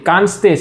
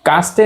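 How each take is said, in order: First: The first syllable ends in a nasal m sound. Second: The first syllable has no nasal sound. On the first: The speaker calls it right. "છે આ ઉપરનો અમ વંચાવ" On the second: The speaker calls it wrong. "નથી"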